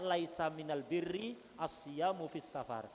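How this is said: The article is pronounced with an l sound. It is the common Arabic form. "Kalau bahasa normalnya"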